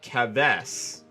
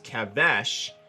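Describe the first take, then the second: First: The word ends with an 's' sound. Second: The word ends with an 'sh' sound. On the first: The speaker calls it wrong. "and not Keves" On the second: The speaker calls it right. "I pronounce Kevesh as Kevesh"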